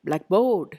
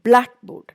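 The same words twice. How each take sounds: First: The stress is on the second part. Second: The stress is on the first part. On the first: The speaker calls it wrong. "Don't say" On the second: The speaker calls it right. "always give importance to the first part"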